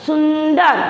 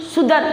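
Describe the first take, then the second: First: सुंदर with a held n before द; correct reading, nasal sounded. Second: सुंदर said as "sudar", no n; wrong reading, nasal dropped. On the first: Teacher shows pupils, सुंदर with its nasal. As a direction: let the half n ring in सुंदर. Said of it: "तो आप क्या पढ़ोगे?". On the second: Teacher shows it sounds odd, सुंदर without nasal. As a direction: leave out the n in सुंदर. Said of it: "सुनने में ही अटपटा लग रहा है". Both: Shown as a demonstration.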